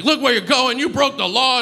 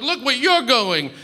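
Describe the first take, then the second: First: High-pitched mock yell, no real volume; high, scolding imitation of screaming; retold angry screaming. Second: High mock yell with "you're" punched; high-pitched retort, leaning on "you're"; retold yelling back. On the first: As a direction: imitate an irate cyclist, pitched way up. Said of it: "he started screaming at me". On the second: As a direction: throw it back, stressing "you're". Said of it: "we're just sort of yelling".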